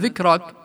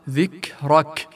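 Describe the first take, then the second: First: The k sound is faint and barely heard. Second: The k sound is clearly breathed and audible. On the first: The speaker calls it wrong. "ما أن سمعت" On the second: The speaker calls it right. "لاحظ الكاف الكل سمعها"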